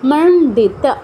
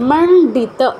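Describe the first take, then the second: Both takes have the same delivery.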